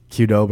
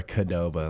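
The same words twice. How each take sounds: First: "Qdoba" with a "kyoo" first syllable; first pronunciation variant. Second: "Qdoba" with a short "kuh" first syllable; second pronunciation variant. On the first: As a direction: say "Qdoba" as kyoo-DOH-buh. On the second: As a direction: say "Qdoba" as kuh-DOH-buh. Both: Shown as a demonstration. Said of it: "how do you pronounce it?".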